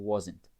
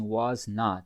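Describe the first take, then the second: First: It is said quickly as one contracted word. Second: It is said as two full, separate words. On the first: "assim, bem rápido, bem contraída" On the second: "ele talvez não vai dizer assim"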